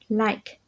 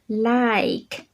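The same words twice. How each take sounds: First: The word is said short and quick. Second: The word is said slowly and stretched out. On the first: The speaker calls it right. "cái từ này cũng đọc nhanh thôi" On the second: The speaker calls it wrong. "không có cần kéo dài á"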